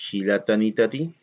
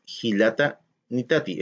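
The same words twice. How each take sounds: First: Hilata nitati joined into one word with no gap; teacher says hilata nitati as one word, right; run together as one word. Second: Hilata nitati said as two separate words with a gap; teacher says hilata nitati split in two, wrong; words split apart. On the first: Profesora muestra la forma correcta, todo junto. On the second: Profesora muestra la forma incorrecta, separada. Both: Shown as a demonstration. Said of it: "todo junto".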